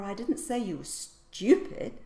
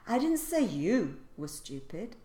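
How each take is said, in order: First: The stress is on "stupid". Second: The stress is on "you".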